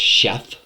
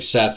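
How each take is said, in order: First: The name begins with an sh sound. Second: The name begins with an s sound. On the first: This is how it sounds in Hebrew. The speaker calls it right. "it sounds different in the Hebrew" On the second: This is the usual English way of saying it. The speaker calls it wrong. "it's not really Seth"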